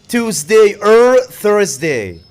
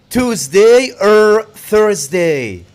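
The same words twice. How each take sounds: Both takes have the same delivery.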